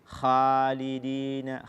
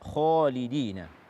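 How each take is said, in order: First: The kh sound is thin and light. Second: The kh sound is full and heavy. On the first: The speaker calls it wrong. "Membaca kha dengan tipis" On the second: The speaker calls it right.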